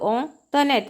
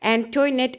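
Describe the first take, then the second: First: It starts with a nasal "ong" sound. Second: It starts with an "an" sound. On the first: This is how the name is really said. The speaker calls it right. "ശരിക്കും പ്രൊനൗൺസ് ചെയ്യുന്നത്" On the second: This is how most people said it. The speaker calls it wrong. "Most പലരും എന്താണ് എങ്ങനെയാണ് പ്രൊനൗൺസ് ചെയ്തത്"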